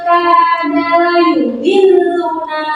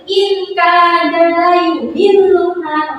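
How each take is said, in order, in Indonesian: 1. Bunyi n samar dan disengaukan ke k. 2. Bunyi n jelas dibaca sebelum k. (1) "tapi harus harus sama-sama" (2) "Dibacanya tidak boleh"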